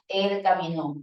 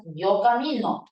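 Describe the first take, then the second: First: Caminó stressed on the final NÓ; acento agudo. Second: Camino stressed on MI; acento grave. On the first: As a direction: hit the last syllable of caminó. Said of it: "tiempo pasado". (él caminó, golpe en NÓ) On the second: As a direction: hit the middle syllable of camino. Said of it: "Tiempo presente". (yo camino, acento en MI) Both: Shown as a demonstration.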